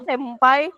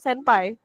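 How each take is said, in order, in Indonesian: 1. Bunyi sengau di tengah diucapkan seperti bunyi m. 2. Bunyi sengau di tengah diucapkan seperti bunyi n. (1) "kalau ada orang ngomong senpai itu salah" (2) "Yang bener senpai atau enggak se ya senpai pakai en"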